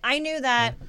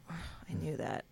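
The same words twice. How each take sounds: First: It is spoken loudly with a projected voice. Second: It is spoken quietly and naturally, without projection. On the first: It suits a room with many people listening. "in the room, you'd have to be like" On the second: It suits filming a take on set. "on the day and the take, you might go, like"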